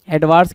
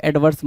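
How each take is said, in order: First: First एडवर्स said "ed-VAARS"; wrong adverse. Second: Second एडवर्स said "ed-VURS"; correct adverse. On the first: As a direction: say एडवर्स with long "aa". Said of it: "की जगह पे". (पहला एडवर्स "एडवार्स" बोलें) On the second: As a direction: say एडवर्स with short "vur". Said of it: "एडवर्स mark करो". (दूसरा एडवर्स छोटे "वर्स" से बोलें) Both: Shown as a demonstration.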